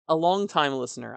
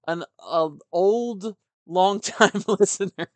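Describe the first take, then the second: First: Said in the usual way. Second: Laughing self-correction. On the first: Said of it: "I should say". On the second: Real, not acted. Host correcting himself about the listener's age, laughing. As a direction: laugh through long-time listener, louder. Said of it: "I shouldn't call him old".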